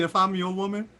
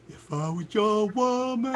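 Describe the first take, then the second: First: Said in the usual way. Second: "If I Was Your Woman" sung out slow in a put-on voice; mangled song title. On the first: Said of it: "She was singing". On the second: Girl in the lobby auditioning for the band, off-key slow title. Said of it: "she was like".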